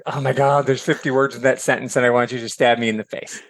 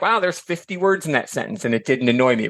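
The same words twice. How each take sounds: First: A hint of a fed-up reader; exasperated groan. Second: Mildly delighted at a long sentence; pleased surprise. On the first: Reader worn out by Faulkner's sentences, mild mock exasperation. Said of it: "and you're like". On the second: Retold or imitated. Reader admiring Austen's long sentence, mild impressed wonder. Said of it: "You're like".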